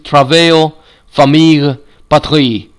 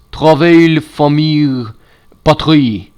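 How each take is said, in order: First: Said in the usual way. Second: Travail, famille, patrie with a French accent; more French voice. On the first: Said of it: "let me read that better in a more French voice". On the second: Shown as a demonstration. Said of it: "in a more French voice".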